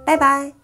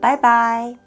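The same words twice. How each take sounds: First: It is said quickly, the syllables run together. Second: It is said at a normal, unhurried pace.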